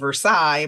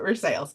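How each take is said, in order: First: It is said the French way, 'ver-SIGH'. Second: It is said the local Kentucky way, 'ver-SALES'.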